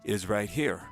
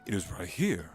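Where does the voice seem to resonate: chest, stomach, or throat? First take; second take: throat; chest. First: The voice is placed and resonates in the throat. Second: The voice is placed and resonates in the chest. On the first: "if you talk with your throat" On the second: "if you talk with your chest"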